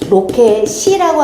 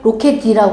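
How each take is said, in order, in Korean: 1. 끝소리는 s 소리처럼 들려요. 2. 끝소리는 d 소리처럼 들려요. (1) "로켓이라고 하지" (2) "로켓이라고 하면 어색한 이상한 거야"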